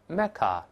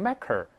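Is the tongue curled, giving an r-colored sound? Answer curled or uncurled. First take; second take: uncurled; curled. First: The vowel is plain with no r-coloring. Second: The vowel is r-colored with a curled tongue. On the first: The speaker calls it right. "我们再读一下Mecca" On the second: The speaker calls it wrong. "没有字母R 的话不要够舌头，所以不要读成Mecca"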